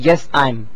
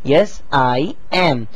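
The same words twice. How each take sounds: First: I am is contracted to I'm. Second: I am is said as two full words. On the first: The speaker calls it wrong. "ये आई एम जो है वो गलत है" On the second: The speaker calls it right. "आपको पूरा कहना पड़ेगा"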